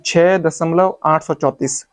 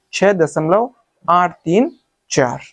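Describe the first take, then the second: First: आठ सौ चौंतीस run together as one number; wrong reading demo. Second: Slow, आठ, तीन, चार as separate digits; correct reading demo. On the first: Teacher telling students what to avoid, demonstrated wrong reading. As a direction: read आठ सौ चौंतीस straight through. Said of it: "आप इसको ऐसे मत पढ़ना". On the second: Teacher showing students the right way, slow digit-by-digit reading. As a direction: space out आठ तीन चार slowly. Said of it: "इसको पढ़ने का सही तरीका ये है". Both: Shown as a demonstration.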